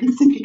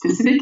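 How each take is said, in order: First: The word starts without an s sound. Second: The word starts with an s sound. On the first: The speaker calls it wrong. "people say Pacific" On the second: The speaker calls it right. "instead of Pacific"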